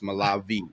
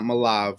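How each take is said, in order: First: The name ends with a final vowel sound. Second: The name ends on a consonant, with no final vowel. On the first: The speaker calls it right. "It's Malavi" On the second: The speaker calls it wrong. "It's not Malav"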